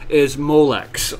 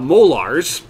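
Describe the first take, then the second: First: The word ends with a ks sound. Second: The word ends with a z sound. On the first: The speaker calls it right. "the correct pronunciation" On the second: The speaker calls it wrong. "as my my little brother would say"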